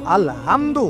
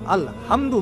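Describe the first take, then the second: No difference in how they are said.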